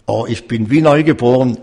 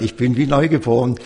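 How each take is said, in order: First: A touch louder, quicker "Oh, ich bin wie neugeboren"; joyful exclamation. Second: Said in the usual way. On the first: Retold or imitated. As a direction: imitate the old man's newfound joy, lightly. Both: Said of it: "Überall hat er gesagt".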